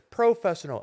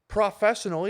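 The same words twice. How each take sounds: First: The first syllable sounds like 'pro'. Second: The first syllable sounds like 'pra'. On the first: The speaker calls it right. "It's professional" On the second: The speaker calls it wrong. "it's not fucking professional either"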